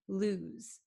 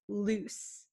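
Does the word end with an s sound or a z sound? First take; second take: z sound; s sound. First: The word ends with a buzzing z sound. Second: The word ends with a hissing s sound. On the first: The speaker calls it right. "This S sounds like a Z" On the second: The speaker calls it wrong. "it's not loose"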